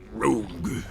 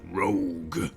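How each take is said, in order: First: It is said in an epic, near-grunting voice. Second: It is said in an epic, near-grunting voice.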